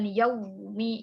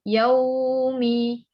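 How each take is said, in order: First: The w sound is pressed hard. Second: The w sound flows smoothly. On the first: The speaker calls it wrong. "bukan yaumi, jangan ditekan" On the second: The speaker calls it right. "harus dialirkan karena punya sifat rakhawah"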